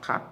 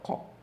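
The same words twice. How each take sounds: First: The vowel sounds light and thin. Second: The vowel sounds heavy and dark. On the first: The speaker calls it wrong. "not qa" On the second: The speaker calls it right. "but qa"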